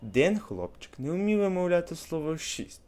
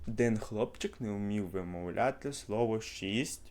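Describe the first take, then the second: First: The phrase ends as if finished, with a longer stop. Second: The phrase ends as if continuing, with a short break. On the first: The sentence ends with a full stop. "а от коли крапочка, дивіться. Ще раз, замічайте різницю" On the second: The sentence goes on after a comma. "Коли кома, треба, наприклад, було би так"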